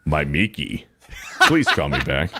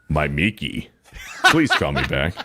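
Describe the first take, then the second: First: It is said in a deep, sexy voice. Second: It is said in a deep, sexy voice.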